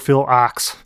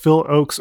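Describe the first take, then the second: First: The surname rhymes with 'box'. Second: The surname rhymes with 'folks'. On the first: "or Phil Ox" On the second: "the internet told me that it's Phil Oakes or Phil Ox"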